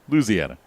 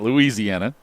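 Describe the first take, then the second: First: The name is said with the local pronunciation. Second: The name is said with an outsider pronunciation. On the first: The speaker calls it right. "it's the way you should say that" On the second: The speaker calls it wrong. "Not Louisiana"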